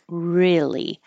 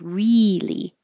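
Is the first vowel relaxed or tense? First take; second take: relaxed; tense. First: The first vowel is relaxed and lower. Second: The first vowel is a tense, high E. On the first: "Your tongue can get a little more relaxed" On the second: "you don't have to say really"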